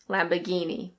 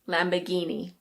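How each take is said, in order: First: It is said in a British accent, r silent. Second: It is said in a British accent, r silent.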